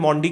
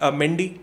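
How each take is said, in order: First: The first vowel sounds like 'ah'. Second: The first vowel sounds like 'eh'. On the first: The speaker calls it right. "French में ए को अ की तरह बोला जाता है" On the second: The speaker calls it wrong. "मेंडी नहीं"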